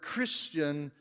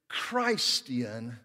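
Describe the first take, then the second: First: The first syllable sounds like 'Chris'. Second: The first syllable sounds like 'Christ'.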